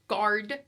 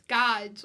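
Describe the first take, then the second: First: The word has a standard American pronunciation. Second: The word has a Jersey, New York pronunciation. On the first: "I can't say guard" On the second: "total Jersey, New York accent"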